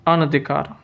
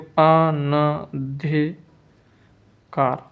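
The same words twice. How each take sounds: First: Said in the usual way. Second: अनधिकार slowly as अ-न-धि-कार; syllable-by-syllable dictation. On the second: Shown as a demonstration. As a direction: pause between the syllables of अनधिकार. Teacher dictates spelling syllable by syllable.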